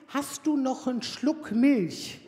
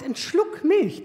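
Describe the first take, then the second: First: Slow, drawn-out innocent request; teen son asking. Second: Slow, higher, drawn-out mock innocence; teen son quoting. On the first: Retold or imitated. Son strolling in to ask mum for milk, slow and innocent. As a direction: stretch it out like a sweet-talking teen. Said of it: "mit dem Satz rein". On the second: Son asking mum for just a sip, slow mock innocence. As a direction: draw it out, playing innocent. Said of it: "der sagt".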